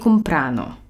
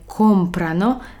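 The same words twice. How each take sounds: First: The stress is on the second syllable. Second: The stress is on the first syllable. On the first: The speaker calls it wrong. "a nie comprano" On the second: The speaker calls it right. "Powiemy comprano"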